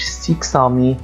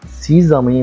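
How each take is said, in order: First: The middle consonant is sounded as ks. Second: The middle consonant is sounded as z. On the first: The speaker calls it wrong. "ما قُلتش سيكسامي no" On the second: The speaker calls it right. "هنا حرف الX عُمل أو نُطق كحرف الZ"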